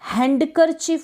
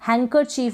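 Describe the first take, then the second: First: A d sound is pronounced after the n. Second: No d sound is pronounced after the n. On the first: The speaker calls it wrong. "हैंडकरचीफ बोलते हैं तो गलत हो जाता है" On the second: The speaker calls it right. "हैंकरचीफ बोलेंगे, डी silent रहेगा"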